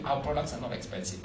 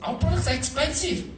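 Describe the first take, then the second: First: Said in the usual way. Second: Higher and brighter with a laugh, stress on products; a laughing confession that the products cost a lot; laughing admission. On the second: Shown as a demonstration. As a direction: own up to it, laughing. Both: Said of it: "But I hate to say we".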